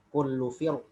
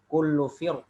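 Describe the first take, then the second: First: The r is pronounced heavy and full. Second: The r is pronounced light and thin. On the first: "atau dengan tafkhim" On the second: "bisa dibaca dengan tipis"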